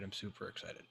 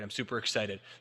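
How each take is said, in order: First: The voice sounds flat and not excited. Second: The voice sounds genuinely upbeat and excited. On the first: Something may be wrong despite the words. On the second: The person really is happy with their progress.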